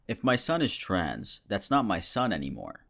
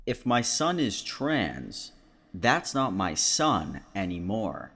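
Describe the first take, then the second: First: Said in the usual way. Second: Slow, deliberate repeat for emphasis; pointed re-read. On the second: Shown as a demonstration. Reading the post one more time for you, slow and pointed. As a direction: spell it out slowly so it sinks in. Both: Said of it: "Should I read that one one more time".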